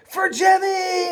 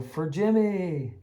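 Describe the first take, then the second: First: High, slow, loud rallying shout of "For Jimmy!"; battle cry. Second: Slow, amused recall of "For Jimmy." at normal volume; fond laughing echo. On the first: Pretend. Players charging Captain Hook to avenge the spider, battle cry. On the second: Retold or imitated. Teacher recalling the game's catchphrase to a colleague, laughing. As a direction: say "For Jimmy." chuckling at the memory. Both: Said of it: "the catchphrase of the day".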